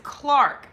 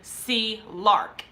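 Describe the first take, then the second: First: The C blends into one syllable with lark. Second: The C is said alone, then lark. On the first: It is her real last name. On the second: It is a playful nickname.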